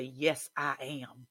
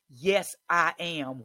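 First: Slow, steady yes I am; deliberate affirmation; slow firm declaration. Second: Louder, slow, defiant yes I am; slow loud declaration; yelled affirmation. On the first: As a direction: plant each word slowly. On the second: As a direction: yell it back at him slowly. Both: Shown as a demonstration. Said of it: "you have to yell back".

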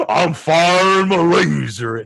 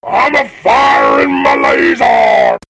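First: Slow robot voice. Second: Loud, high, slow robot shout. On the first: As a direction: drone it out like a robot. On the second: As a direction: bellow it like a cartoon robot. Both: Retold or imitated. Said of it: "That's a cool sound cue for that".

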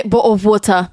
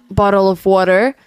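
First: Quick British "bottle of water" with dropped t; British-leaning accent. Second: American pronunciation of "bottle of water"; American English accent. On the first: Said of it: "now I say". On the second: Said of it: "before I came here, I used to say". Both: Shown as a demonstration.

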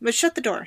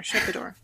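First: Said in the usual way. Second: Whisper. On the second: Retold or imitated. Manager repeats it secretively.

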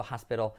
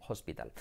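First: "hospital" as HAS-pero; soft r sound for the t in "hospital"; pronunciación correcta. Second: "hospital" as os-pee-TAL; Spanish vowels and full t in "hospital"; pronunciación errónea. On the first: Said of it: "diciendo hospital en lugar de". ("hospital" dicho «jáspero») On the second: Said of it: "en lugar de hospital". ("hospital" dicho «ospital») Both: Shown as a demonstration.

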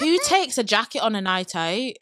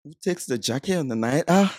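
First: Light Mancunian twang; Manchester accent. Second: Half-hearted Mancunian try; attempted Manchester accent. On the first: Shown as a demonstration. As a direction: say it like a Manchester local. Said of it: "Right, let me go". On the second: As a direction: copy the Manchester line, unsure. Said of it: "I can try this".

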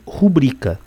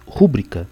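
First: "rubrica" stressed on the middle syllable, ru-BRI-ca; correct stress. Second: "rúbrica" stressed on the first syllable, RÚ-bri-ca; misplaced stress. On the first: Teacher giving the correct word for a scribble on documents, carefully stressed. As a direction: lean firmly on BRI in "rubrica". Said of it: "não é aquela precisa, correta". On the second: Teacher quoting a common slip of prosody, mispronounced. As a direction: say "rúbrica" with the stress slipped back to RÚ. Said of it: "ela deslocou a sílaba tônica". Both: Shown as a demonstration.

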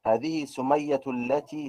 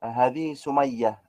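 First: سمية linked as "Sumayyatu" into التي; connected form with ta. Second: Slow سمية stopped as "Sumayyah", no t; pausal ending. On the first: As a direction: sound a t with "u" at the end of سمية. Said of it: "في الوصل". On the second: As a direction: draw out هذه سمية and stop without ta. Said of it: "أقف". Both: Shown as a demonstration.

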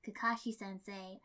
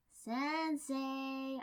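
First: Said in the usual way. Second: Higher, drawn-out call of Sensei; louder second try. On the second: A narrator's reading. Shikako calls again to the teacher ignoring her, higher and drawn out. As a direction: stretch Sensei high to get him to look up. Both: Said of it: "I tried again".

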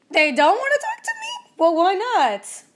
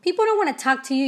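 First: Shocked and offended; indignant surprise. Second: Said in the usual way. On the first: Retold or imitated. Answering her coach, high and indignant. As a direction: pitch jumps way up on they don't wanna talk to me, then a slow why not. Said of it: "And I was like". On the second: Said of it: "She said".

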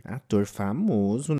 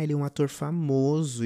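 First: Drawn-out questioning echo, rising at the end; mock incredulous. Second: Said in the usual way. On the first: Storyteller doubting friends about the celebrity, mock incredulous. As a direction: slowly query it in disbelief.

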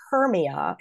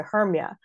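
First: "Hermia" in three syllables, HER-mee-a; unelided "Hermia"; full name. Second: "Hermia" squeezed to two syllables, HERM-ya; merged ending on "Hermia"; shortened name. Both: Shown as a demonstration. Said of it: "shorten Hermia into Hermia".

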